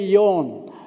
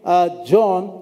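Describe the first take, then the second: First: The name begins with a Y sound. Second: The name begins with a J sound. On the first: The speaker calls it right. "you say Yon" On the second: The speaker calls it wrong. "you don't say John, because the J in Hebrew is the Y"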